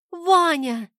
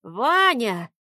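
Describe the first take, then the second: First: Put-on a much higher, urgent girl's cry. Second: A lightly voiced wheeze from the old man; old man wheezing. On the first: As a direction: shout his name in alarm. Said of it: "крикнула Снежка". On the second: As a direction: choke the name out while being strangled. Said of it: "прохрипел дед". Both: A narrator's reading.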